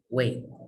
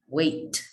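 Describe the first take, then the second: First: The final T is held in the throat. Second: The final T is fully released. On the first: The speaker calls it right. "We also hold it at the end of a word" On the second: The speaker calls it wrong. "It's not got, wait"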